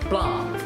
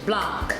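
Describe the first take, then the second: First: The final C sound is left out. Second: The final C sound is pronounced. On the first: "the C is left out" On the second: "we would say in English Blanc"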